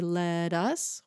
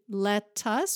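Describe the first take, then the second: First: The T in 'let' sounds like a soft D. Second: The T in 'let' is a crisp hard T. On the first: "let us with a D sound" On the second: "let us with a hard T"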